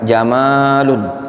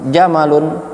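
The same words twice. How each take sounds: First: The second vowel is drawn out long. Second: The second vowel is kept short.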